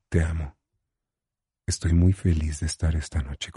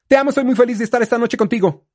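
First: It is said slowly with a low pitch. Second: It is said fast with a high pitch.

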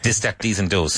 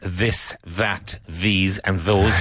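First: The words are said in an Irish accent. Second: The words are said in a standard, non-Irish accent. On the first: "You hear this" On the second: "If you go to Ireland... you won't hear this"

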